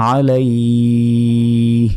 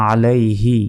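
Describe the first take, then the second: First: আলাইহ with a long "ee" ending in h; drawn-out stop. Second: Said in the usual way. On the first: Shown as a demonstration. Teacher shows the reading at a stop, drawn out. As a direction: stretch the last glide of আলাইহ steadily. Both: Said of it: "থামলে".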